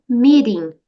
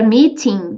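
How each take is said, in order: First: The T is said as a quick R-like tap. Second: The T is said as a clear T sound.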